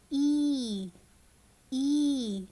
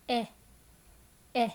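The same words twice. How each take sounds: First: Each "E" drawn out as "eee"; slow phonics model of sustained "E"; long E sound. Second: Very short, separate "eh" sounds. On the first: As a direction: hold the "E" long. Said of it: "when we say long sound". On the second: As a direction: cut each "eh" brief. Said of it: "we say the short sound". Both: Shown as a demonstration.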